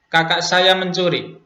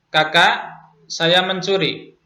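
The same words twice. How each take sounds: First: There is no pause after the first word. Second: There is a pause after the first word. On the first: The speaker's older sibling is the one who stole. "yang mencuri adalah kakak saya" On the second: The speaker is the one who stole. "Yang mencuri adalah saya"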